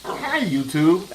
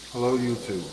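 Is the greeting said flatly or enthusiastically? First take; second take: enthusiastically; flatly. First: The greeting is said enthusiastically. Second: The greeting is said flatly.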